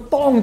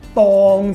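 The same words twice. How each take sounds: First: The word is said in the first tone. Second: The word is said in the third tone. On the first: It means to face or to take on. "呢個第一聲" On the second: It means suitable or appropriate. "第三聲"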